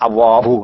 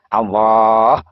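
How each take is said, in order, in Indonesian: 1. Kata ini berakhir dengan vokal u. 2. Kata ini berakhir pada huruf h tanpa vokal. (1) "Tidak Allahu" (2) "Kalau sampean melafalkan Allah, kan begitu"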